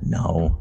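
The word is said quietly with a sense of shame. The speaker feels embarrassed about the answer. "just very ashamed"

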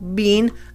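The vowel is a long ee sound. This is the British way of saying it. "long E, and the Brits pronounce it like that"

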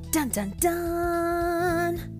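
It is said in an upbeat, cheerful tone.

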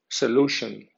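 It is read with English sounds and stress. "en pronunciación inglesa"

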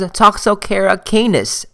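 Canis is pronounced the British way.

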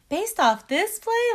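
The question sounds upbeat and encouraging. The speaker is trying to be supportive.

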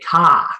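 The r is dropped, Boston style.

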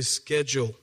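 It is said with an American pronunciation.

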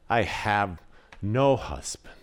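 The voice sounds hopeless and heavy. She has given up hope. "Or was it despair?"

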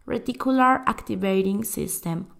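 It is said with a showy English-like accent. "para hacerme la bilingüe"

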